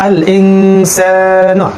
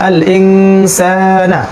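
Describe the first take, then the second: Both takes have the same delivery.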